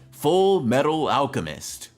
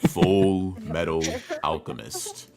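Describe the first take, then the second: First: It is said in a plain, normal speaking voice. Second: It is said in a dramatic announcer-style voice.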